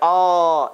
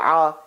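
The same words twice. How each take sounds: First: The sound is drawn out as a long vowel. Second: The sound is caught sharply in the throat. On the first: The speaker calls it wrong. "don't stretch the sound. Don't say ah" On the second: The speaker calls it right. "strangling ah"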